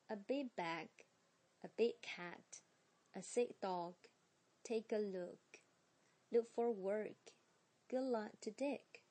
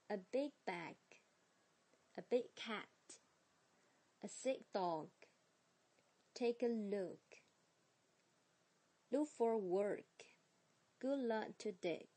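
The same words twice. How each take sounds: First: "A big bag" with final stops dropped into next words; linked, unreleased stops. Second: Said in the usual way. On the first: Shown as a demonstration. Teacher rereads phrases with sound changes. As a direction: run the phrases with swallowed g and k. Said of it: "失去爆破，就不用读出来了". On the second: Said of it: "接下来是我们的phrases".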